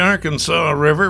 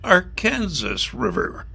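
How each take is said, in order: First: The name is said the way people in Arkansas say it. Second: The name is said the way people in Kansas say it. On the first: This is how locals in Arkansas say it. "In Arkansas, they pronounce it the Arkansas River" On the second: This is how locals in Kansas say it. "but in Wichita, Kansas, in the state of Kansas, it's the Arkansas River"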